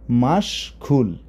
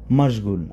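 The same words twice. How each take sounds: First: Slow careful word. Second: Said in the usual way. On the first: Shown as a demonstration. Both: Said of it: "তাহলে মাশগুল মানে কি?".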